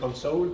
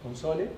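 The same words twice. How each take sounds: First: The word is pronounced the English way. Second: The word is pronounced the Spanish way. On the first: "No voy a decir console porque después se van a reír de mi pronunciación" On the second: "los digo bien en castellano"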